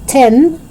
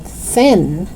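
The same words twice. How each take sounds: First: "tin" with a hard T; crisp T opening "tin". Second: Tongue out to start "thin"; TH sound. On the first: Teacher showing learners the mistake, "tin" with hard T. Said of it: "It's not tin". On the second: Teacher correcting learners, "thin" with clear TH. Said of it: "but thin". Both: Shown as a demonstration.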